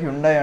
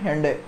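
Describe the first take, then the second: First: The first syllable sounds like hyoon. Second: The first syllable sounds like hen. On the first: This is how most people say it. The speaker calls it wrong. "దీన్ని అందరూ హ్యుండై అంటారు" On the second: This is the correct pronunciation. The speaker calls it right. "Correct pronunciation హెండే, సండే లాగా హెండే"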